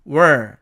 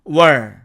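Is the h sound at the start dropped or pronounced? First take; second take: dropped; dropped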